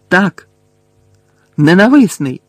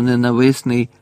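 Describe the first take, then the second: First: Loud, high burst of bitter exclamation; high, cracked shout; cracked-voice outcry. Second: Said in the usual way. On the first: A narrator's reading. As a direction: cry it out, voice rising sharply then falling. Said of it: "надтріснутим голосом вигукнув Гаррі".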